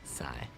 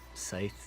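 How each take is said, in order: First: The word ends on the vowel sound. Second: The word ends with a th sound. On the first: The speaker calls it wrong. "like it was pronounced sigh" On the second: The speaker calls it right. "Scythe sounds fine"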